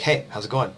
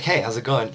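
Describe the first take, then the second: First: Greeting through a stiff, forced smile; the tight, put-on hello of a forced grin. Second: Relaxed greeting with a real smile; mean the hello, smile with your eyes; easy, heartfelt hi with relaxed face; genuine smile. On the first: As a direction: fake the friendliness a little. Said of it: "if you try to force a smile". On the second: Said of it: "I'll just show is a genuine smile". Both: Shown as a demonstration.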